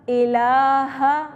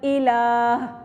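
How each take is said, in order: First: The word ends with a full final vowel. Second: The word ends on a soft final h sound. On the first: The reader continues without stopping. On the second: The reader stops at this word.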